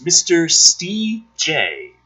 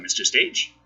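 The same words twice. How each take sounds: First: "Steve J" slowly split into two syllables; corrected name pronunciation. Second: "Stage" said as one syllable; name read as Stage. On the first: Shown as a demonstration. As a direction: stretch "Steve J" out as two separate beats, stee-jay. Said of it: "I was corrected on D Live". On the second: Real, not acted. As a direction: say "Stage" as a single word, like a theatre stage. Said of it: "I think that's pronounced Stage".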